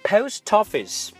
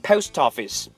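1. 末尾的 t 连到后面的元音上。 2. 末尾的 t 连到后面的元音上。

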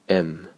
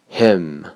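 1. h 音会被省略并弱化。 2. h 音要完整发出。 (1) "弱读式" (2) "强读式"

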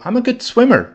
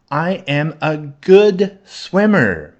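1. 这句话是正常语速说的。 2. 这句话是慢速说的。

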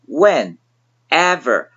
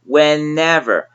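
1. 这个词被分成了几个独立的部分。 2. n 会顺畅地连到后面的元音上。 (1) "单词分割开来看" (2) "加在一起会读成"

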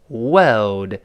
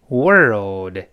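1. r 音省掉了，不需要卷舌。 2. r 音要把舌头卷起来发。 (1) "英式发音就好读一些，它中间少了一个卷舌" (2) "在美式发音中不好读"

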